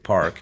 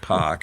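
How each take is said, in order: First: The R sound after the vowel is pronounced. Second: The R sound after the vowel is dropped. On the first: This is the corrected way of speaking. The speaker calls it right. "I say" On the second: This is the Boston way of speaking. The speaker calls it wrong. "where we dropped our R's. I've corrected the way I speak, so I don't say"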